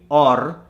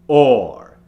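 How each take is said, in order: First: The R is made forward with a rolled tongue. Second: The R is strong and made at the back. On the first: The speaker calls it wrong. "You don't want it to be or" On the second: The speaker calls it right. "you need it to be or"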